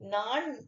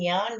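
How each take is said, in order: First: The word begins with a plain n sound. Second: The word begins with a palatal ny sound. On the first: This is the prose form. "நடை வடிவில வரக்கூடியது" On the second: This is the poetic form. "செய்யுள் வடிவில வரக்கூடியது"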